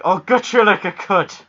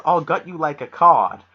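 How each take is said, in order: First: Loud, high mock Nova Scotian threat; hammed-up Nova Scotia film accent; thick Nova Scotia accent. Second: Said in the usual way. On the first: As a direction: imitate a thick Maritime Canadian accent. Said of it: "this thick accent going on". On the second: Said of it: "but with the accent".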